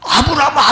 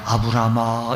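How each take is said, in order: First: The name is called out urgently. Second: The name is called out plainly and calmly.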